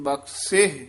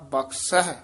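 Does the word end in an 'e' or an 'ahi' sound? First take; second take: e; ahi. First: The word ends in a plain 'e' sound. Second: The word ends in an 'ahi' sound. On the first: The speaker calls it right. "ਇਹਦਾ ਉਚਾਰਨ ਬਖਸ਼ੇ ਕਰਨਾ" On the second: The speaker calls it wrong. "ਜ਼ਿਆਦਾ ਬਖਸ਼ਹਿ ਆਉਂਦਾ"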